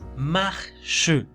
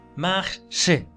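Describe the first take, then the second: First: The final e is sounded like Spanish e. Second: The same.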